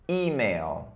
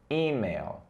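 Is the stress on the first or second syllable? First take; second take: first; first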